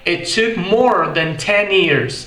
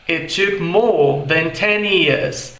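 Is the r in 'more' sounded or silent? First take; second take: sounded; silent. First: The r in more is sounded. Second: The r in more is silent. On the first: "Já no inglês americano soa como" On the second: "Em inglês britânico"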